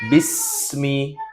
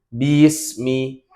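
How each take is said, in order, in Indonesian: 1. Bunyi ba pendek, satu ketukan. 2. Bunyi ba diseret menjadi dua ketukan. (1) "Yang harusnya bismi" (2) "huruf ba ini yang menyeret... satu harokat jadi dua"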